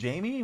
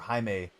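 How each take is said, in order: First: The name starts with an English J sound. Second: The name is said with a Spanish pronunciation. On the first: "Jamie with the J" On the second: "like the uh, more Spanish pronunciation"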